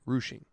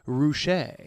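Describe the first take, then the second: First: The word ends with a 'shing' sound. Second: The word ends with a 'shay' sound. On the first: This is the pronunciation they have been using. "they think we've got it right" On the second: Someone else suggested this pronunciation. "somebody comes along with just an interesting enough explanation and and pronunciation that it might be different"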